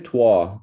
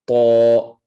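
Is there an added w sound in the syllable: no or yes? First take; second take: yes; no. First: An extra w sound is added. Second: No extra w sound is added. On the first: The speaker calls it wrong. "don't say toi. Try not to add that W in there" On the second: The speaker calls it right. "Just to"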